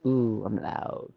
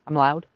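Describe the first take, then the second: First: Softer, slow realization; ooh, drawn out slowly and quieter. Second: Said in the usual way. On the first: Real, not acted. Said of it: "Turn me down".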